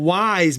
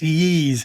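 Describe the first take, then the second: First: The name sounds like the word 'whys'. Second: The name sounds like 'yeez'. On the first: This is the old, casual way of saying it. The speaker calls it wrong. "we used to call it Y's back in the day" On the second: This is the way fans insist on. The speaker calls it right. "said it's Yeez"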